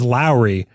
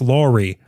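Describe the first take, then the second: First: The name is said like 'Lowry'. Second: The name is said like 'Laurie'. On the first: The speaker calls it wrong. "I've been pronouncing it wrong all the time" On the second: The speaker calls it right. "it's like Laurie"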